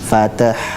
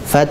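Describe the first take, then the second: First: An extra vowel is added between t and h. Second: The t runs straight into h, no vowel. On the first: The speaker calls it wrong. "bukan fatah" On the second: The speaker calls it right. "tapi fath"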